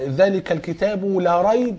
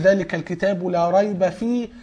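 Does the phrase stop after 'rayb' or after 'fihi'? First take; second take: after rayb; after fihi. First: The phrase stops right after the word 'rayb'. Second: The phrase stops right after the word 'fihi'. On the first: The book contains no doubt at all. "ممكن تقف لا ريب" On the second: The book contains nothing false in it. "والثاني ذلك الكتاب لا ريب فيه"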